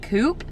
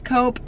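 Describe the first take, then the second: First: It is pronounced the usual American way. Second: It is pronounced the way locals say it. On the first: "back in America, we would probably pronounce that Coop" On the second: "but I think it's Coop"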